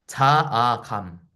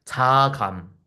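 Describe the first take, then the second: First: Each syllable drawn out slowly; 자아감 stretched syllable by syllable; slow, deliberate repeat. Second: Said in the usual way. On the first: Shown as a demonstration. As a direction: say it again slowly so it sinks in. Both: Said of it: "자아감이라고 부르기로 했어요".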